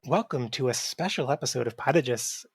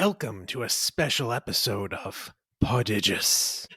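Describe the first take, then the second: First: It is read in a plain, normal way. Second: It is read in a spooky, eerie way.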